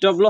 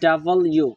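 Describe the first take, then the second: First: The letter name is squeezed into two syllables. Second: The letter name is said as three full syllables. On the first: The speaker calls it wrong. "ডব্লু হবে না" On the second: The speaker calls it right. "এটা হবে ডাবল ইউ"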